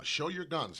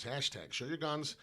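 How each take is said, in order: First: Louder, punchy show your guns; louder "show your guns" call; hype call. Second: Slowed, spelled-out "Hashtag show your guns"; slow deliberate hashtag plug; slow slogan. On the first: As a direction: bark the slogan out to viewers. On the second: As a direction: lay out the hashtag slowly. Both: Shown as a demonstration.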